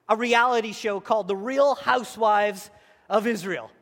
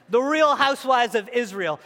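First: Said in the usual way. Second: Louder repeat. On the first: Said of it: "joke title". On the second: Real, not acted. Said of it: "joke repeated".

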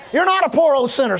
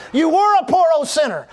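First: "not" punched in "You're not"; stress on NOT. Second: "were" punched as past tense; stress on WERE. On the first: Preacher correcting believers' view of themselves, stress on "not". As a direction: lean hard on the word "not". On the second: Preacher contrasting believers' old life, stress on "were". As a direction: lean hard on the word "were". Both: Real, not acted.

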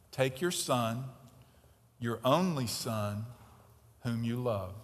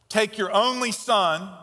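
First: Low, hushed reading of the verse; softly quoted. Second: "only" held long and loud; stress on only. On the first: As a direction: read it gently, almost to yourself. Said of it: "What does that sound like?". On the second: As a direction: lean hard on "only", slowly. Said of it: "two major understatements". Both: Shown as a demonstration.

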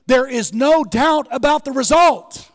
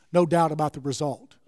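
First: Loud, high declaration, RESULT hammered; the refrain now shouted from the pulpit; preached at full force. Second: Said in the usual way. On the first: Acted.

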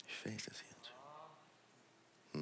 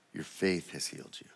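First: Breathy whisper of the same line; soft whispered repeat, almost no voice. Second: Said in the usual way. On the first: Acted. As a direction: drop to a secret whisper, intimate.

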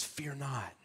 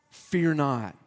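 First: Breathy whisper of scripture. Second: Said in the usual way. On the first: Acted. Preacher quoting scripture's most common command: soft whisper. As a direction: hush it like a secret promise.

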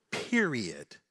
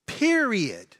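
First: Said in the usual way. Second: Period. punched high and loud as a final word; emphatic period. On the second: Real, not acted.

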